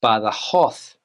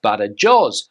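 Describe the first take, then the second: First: It is said with a Spanish pronunciation. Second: It is read the way English spelling suggests. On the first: The speaker calls it right. "In Spanish, you would pronounce this word as Badajoz" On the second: The speaker calls it wrong. "you would think it's pronounced Badajoz, but that's not correct"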